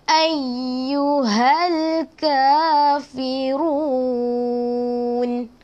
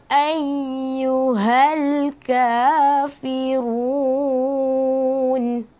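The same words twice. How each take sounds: The two takes are said the same way.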